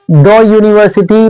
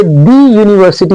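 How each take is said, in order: First: "द यूनिवर्सिटी" with "द" as a short "duh"; right take of "द यूनिवर्सिटी". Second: "दी यूनिवर्सिटी" with "दी" as a long "dee"; wrong take of "दी यूनिवर्सिटी". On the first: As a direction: model "द" before यूनिवर्सिटी. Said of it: "द यूनिवर्सिटी पढ़ेंगे". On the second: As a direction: show the wrong "दी" before यूनिवर्सिटी. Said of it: "दी यूनिवर्सिटी नहीं पढ़ेंगे". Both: Shown as a demonstration.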